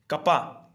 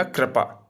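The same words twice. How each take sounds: First: कपा said as "ka-pa", no ri sound; कपा with the ri sign left out; misspelt form read out. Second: कृपा said with a clear "kri" ri sound; कृपा as krupa, ri sign restored; corrected spelling. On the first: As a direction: read the wrong spelling कपा plainly as ka-pa. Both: Shown as a demonstration. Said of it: "तो इसमें हो जाएगा कृपा".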